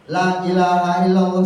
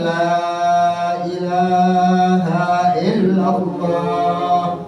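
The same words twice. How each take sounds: First: The first 'la' has a short vowel. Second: The first 'la' has a long, drawn-out vowel. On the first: The speaker calls it wrong. "jangan dibaca pendek. La ilaha illallah salah Pak" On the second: The speaker calls it right.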